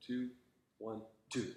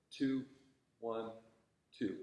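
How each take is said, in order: First: Rushed, uneven count, softer; exaggerated uneven count. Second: Even, unhurried count; steady counting. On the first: Teacher mimicking a student's rushed beats, exaggerated. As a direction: mimic the student's rushing beat, overdone. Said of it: "That's a little exaggerated". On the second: Shown as a demonstration. Conductor showing a student steady tempo, evenly counted. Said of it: "just think of that slow, steady tempo".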